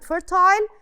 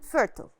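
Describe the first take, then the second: First: The word is said in a British accent. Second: The word is said in an American accent. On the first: "British accent" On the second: "الأمريكان accent"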